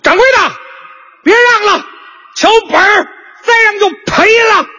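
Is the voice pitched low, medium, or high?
medium. It is said at a somewhat raised pitch.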